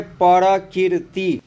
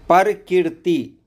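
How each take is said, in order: First: परकीर्ति said as pər-kīr-ti with the र sounded as its own syllable; alternate pronunciation. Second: परकीर्ति said slowly, each syllable pər-kīr-ti drawn out; slow alternate pronunciation. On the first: Teacher showing how some people write परकीर्ति. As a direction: say परकीर्ति with a full separate पर. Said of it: "कुछ लोग लिखते हैं". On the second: Teacher slowly giving the other spelling परकीर्ति. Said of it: "या". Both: Shown as a demonstration.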